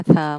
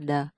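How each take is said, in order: First: "the" as unvoiced TH, as in breath; teacher demonstrating the TH in "the" without voicing; noun-ending TH sound. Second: "the" as voiced TH, as in breathe; teacher demonstrating a voiced TH in "the"; verb-ending TH sound. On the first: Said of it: "khi mà động danh từ ấy nha". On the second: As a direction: say "the" with a buzzing TH. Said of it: "mà khi là động từ thì nó là". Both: Shown as a demonstration.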